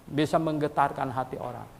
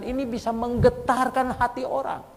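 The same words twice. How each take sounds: First: Said in the usual way. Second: Fervent preaching. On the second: Acted. Preacher proclaiming to the congregation, high and fervent. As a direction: proclaim it to stir the church. Preacher repeats key line.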